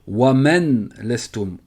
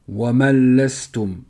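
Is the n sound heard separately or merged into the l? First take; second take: separate; merged. First: The n is pronounced separately before the l. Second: The n merges fully into the following l. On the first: The speaker calls it wrong. "la faute ici, ce serait de dire Wamen lestum, en prononçant le noun" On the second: The speaker calls it right. "on rentre directement dans le lem"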